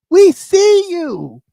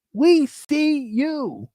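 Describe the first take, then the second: First: Slow, emphatic WE, higher; pointed call-out. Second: Slow, much softer echo of the call-out; soft knowing repeat. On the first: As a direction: drag it out slowly, hitting each word. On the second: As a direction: drop it down, quiet and knowing. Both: Real, not acted. Calling out the liar.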